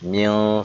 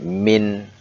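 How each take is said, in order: First: The word ends with an l-like sound. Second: The word ends with a clear n sound. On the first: The speaker calls it wrong. "Tidak boleh dibaca mil, salah" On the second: The speaker calls it right. "dia harus jelas"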